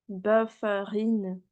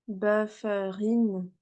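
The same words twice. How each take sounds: Both takes have the same delivery.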